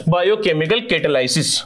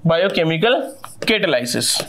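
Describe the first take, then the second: First: Said in the usual way. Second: "biochemical" rising, a pause, then "catalysis." dropping much lower; spelled out slowly. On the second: Shown as a demonstration. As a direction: lay out "biochemical" and "catalysis." as two separate, deliberate words. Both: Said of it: "difference केवल word का है".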